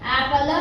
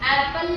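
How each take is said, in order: First: The word ends with an added a vowel. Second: The word ends in a bare l consonant. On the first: The speaker calls it wrong. "ಆಪಲ ಅಂತೀವೇನ?" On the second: The speaker calls it right. "Last ಅಲ್ sound ಹೆಂಗ್ ಬರುತ್ತೆ? ವ್ಯಂಜನ್ ಮಾಡ್ತೀವಿ"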